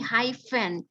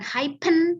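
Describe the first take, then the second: First: The middle consonant is an f sound. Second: The middle consonant is not an f sound. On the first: The speaker calls it right. "tapi hyphen karena dia dengan sounds" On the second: The speaker calls it wrong. "bukan hyphen"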